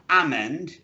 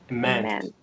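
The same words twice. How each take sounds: First: The first vowel is a full 'eh' sound. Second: The first vowel is a weak schwa sound. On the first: The speaker calls it wrong. "not eh" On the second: The speaker calls it right. "This is the schwa at the beginning"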